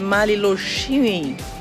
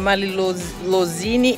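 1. A consoante antes do final é chiante. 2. A consoante antes do final não é chiante. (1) "Quando tem aquele acento aqui no S, som de X" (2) "não é Malilozine"

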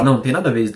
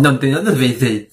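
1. As palavras são ditas com articulação clara e normal. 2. As palavras são ditas entre os dentes, com ceceio.

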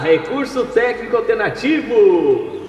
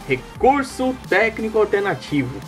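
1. A voz tem um efeito de eco adicionado. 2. A voz soa seca, sem eco.

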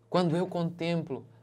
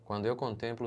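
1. Está dito com admiração e emoção. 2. Está lido de forma monótona, sem emoção. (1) "Ele está deslumbrado" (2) "Não é assim"

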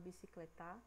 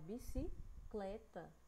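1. A sílaba tônica é a última. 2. A sílaba tônica é a penúltima. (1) "A gente não fala bicicletar" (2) "A gente fala bicicleta"

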